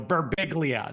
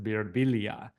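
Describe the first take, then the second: First: The G in the name is sounded hard. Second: The G in the name is not sounded. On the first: "look at this hard G and go Berbiglia" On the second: "changed the pronunciation in my life to Birbilia"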